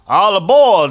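It is said in a southern accent.

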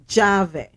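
The word begins with a J-like sound. This is how it is said in the Dominican Republic. "It's pronounced like a J"

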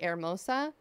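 It is said with a Spanish pronunciation. This is how the original language says it. The speaker calls it right. "technically should be Hermosa"

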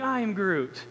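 It is said in a loving tone.

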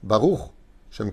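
There is a short pause after Baruch. The speaker calls it right. "Faites attention de le prononcer comme ça"

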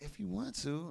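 It is said in a cute, flirty tone. She really wants him to come.

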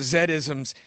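The letter Z is said as zed. "It'll be Zed, right?"

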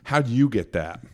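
It sounds insulting and doubtful.

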